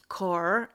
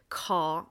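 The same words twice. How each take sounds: First: American accent, with the final r sounded. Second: British accent, with the final r dropped. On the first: "ez az amerikai" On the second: "na ez brit"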